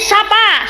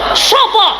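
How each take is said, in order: First: The vowels are pronounced as an open a. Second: The vowels are pronounced as a rounded o. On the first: This is how people here say it. "Mriki sapa?" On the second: This is how people in Surabaya say it.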